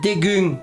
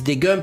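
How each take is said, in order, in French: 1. La voyelle U est bien prononcée. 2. La voyelle est un son nasal français. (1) "mais normalement on dit dégueu" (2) "les gens disent dégueu parce qu'en français, le U se prononce un"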